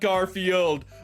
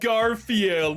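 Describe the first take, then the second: First: The final D is pronounced hard. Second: The final D is pronounced softly. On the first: The speaker calls it wrong. "not Garfield" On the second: The speaker calls it right. "That is a soft D"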